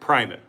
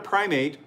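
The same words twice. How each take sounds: First: It is pronounced like the church title. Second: It is pronounced like the word for apes. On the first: It names a senior bishop. The speaker calls it right. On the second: It names a kind of monkey. The speaker calls it wrong.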